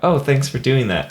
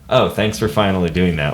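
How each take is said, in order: First: It sounds like a sincere thank you. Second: It sounds like a sarcastic, resentful thank you.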